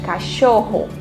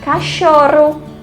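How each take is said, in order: First: The middle r is a strong, rough sound. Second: The middle r is a soft, light sound. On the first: The speaker calls it right. "colocamos o dígrafo e fica cachorro" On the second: The speaker calls it wrong. "Se nós colocássemos só um R na palavra cachorro, ficaria cachorro. Não ficaria correto"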